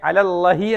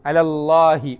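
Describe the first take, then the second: First: The vowel after the first L is short. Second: The vowel after the first L is long. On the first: The speaker calls it wrong. "നീട്ടുന്നില്ലെങ്കിൽ നമ്മൾ എങ്ങനെ ഓതിയേനെ?" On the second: The speaker calls it right. "ഒരു അലിഫ് നീട്ടിയാണ്"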